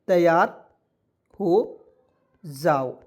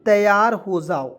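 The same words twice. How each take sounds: First: तैयार, हो, जाओ spaced out with long pauses; word by word dictation. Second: Said in the usual way. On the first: Shown as a demonstration. Teacher dictating तैयार हो जाओ slowly, word by word.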